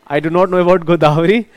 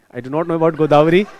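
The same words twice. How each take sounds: First: A bit louder, chuckling through the words; laughing. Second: Said in the usual way. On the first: Real, not acted. Teacher repeating to a student that he doesn't know, laughing.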